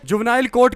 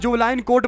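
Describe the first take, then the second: First: The first word ends with a 'nile' sound. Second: The first word ends with a 'line' sound. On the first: The speaker calls it right. "जिसे जुवनाइल court कहा जाता है" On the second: The speaker calls it wrong. "नाइल और लाइन का अंतर ही नहीं पता"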